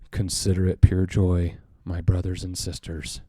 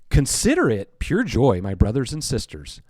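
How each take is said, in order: First: It is read in a plain, unwelcoming tone. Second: It is read in a warm, welcoming, inviting tone. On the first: "Or you could read it like this" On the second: "my best auto attendant voice, okay? That's very welcoming and inviting"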